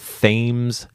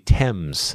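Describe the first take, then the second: First: It is pronounced the local Connecticut way. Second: It is pronounced the British, London way. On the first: "If you want to pronounce it like the local" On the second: "over there it is the Thames"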